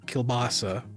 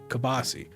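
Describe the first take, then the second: First: The word is said the usual way, ending in 'ah'. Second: The word is said shortened, ending in 'ee'. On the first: This is how most people say it. "as people pronounce it" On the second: This is how the speaker's family says it. "My family's always called it kibasi"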